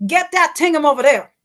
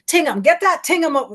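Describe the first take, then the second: First: Higher Bahamian accent, a little louder. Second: Higher, quick Bahamian "Tingham"; Bahamian accent. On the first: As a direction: Bahamian "Get that Tingham", still too fast. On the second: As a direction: say it in a Bahamian accent, a bit too fast. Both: Shown as a demonstration. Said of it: "I'm still doing it too fast".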